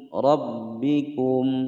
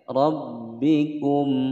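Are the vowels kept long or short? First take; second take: short; short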